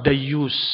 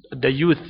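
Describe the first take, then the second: First: The word ends with an s sound. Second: The word ends with a th sound.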